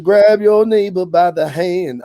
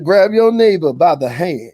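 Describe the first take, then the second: First: Higher preacher call, pushed harder; hollering revival preacher. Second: Higher preacher call to the pews; hollering revival preacher. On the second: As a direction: command the congregation, preacher style. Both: Pretend. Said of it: "I said".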